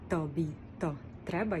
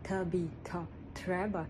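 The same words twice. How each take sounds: First: The t is hard, tongue pushed against the teeth. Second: The t is softer, tongue raised behind the teeth. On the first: "дуже тверде" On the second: "вони наверх його"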